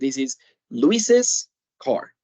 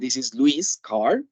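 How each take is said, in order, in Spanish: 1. El nombre termina con una sílaba extra 'iz'. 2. El nombre no tiene una sílaba extra después. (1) "La pronunciación en este caso va a ser Luises" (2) "Yo no voy a decir this is Luis' car, porque no se entiende dónde está el apóstrofe y la S"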